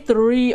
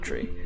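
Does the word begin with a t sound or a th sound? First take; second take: th sound; t sound. First: The word begins with a th sound. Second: The word begins with a t sound. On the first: It is the careful pronunciation used on stream. "I do say "three" on stream" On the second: It is the everyday pronunciation used in real life. "in real life, I would say it about "tree.""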